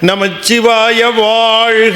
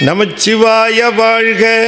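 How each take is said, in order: First: The vowel in vaazhga is drawn out and lifted. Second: The vowel in vaazhga is short and the sound drops. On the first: The speaker calls it right. "அப்படி மேலே தூக்கி கொண்டு போய் நிறுத்துது" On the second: The speaker calls it wrong. "இல்லை"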